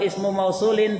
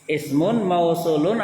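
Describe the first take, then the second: First: The first ends in u, the second in in. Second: Both words end with an un sound. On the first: The speaker calls it wrong. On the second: The speaker calls it right.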